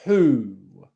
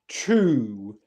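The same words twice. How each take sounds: First: The t is crisp, with no ch quality. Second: The t is rounded, drifting toward ch. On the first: The speaker calls it right. "That's correct" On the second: The speaker calls it wrong. "which isn't"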